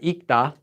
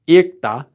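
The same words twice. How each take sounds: First: The consonant cluster is reduced to one sound. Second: The consonant cluster is pronounced in full. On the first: This is how people actually say it. "they pronounce it as ikta" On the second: This follows the written spelling. "although it's written as ikta"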